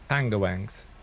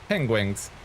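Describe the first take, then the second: First: The word is pronounced with distorted, garbled vowels. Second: The word is pronounced in the ordinary standard way. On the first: It imitates a machine's failed attempt at the word. The speaker calls it wrong. "Like weird A I couldn't pronounce it even" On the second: It is the proper way to say the word. The speaker calls it right. "how to say penguins properly"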